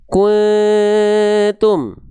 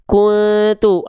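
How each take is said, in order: First: The nasal sound is held for two counts. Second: The nasal sound is released quickly. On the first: The speaker calls it right. "tahan dulu dua harokat" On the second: The speaker calls it wrong. "ah itu buru-buru"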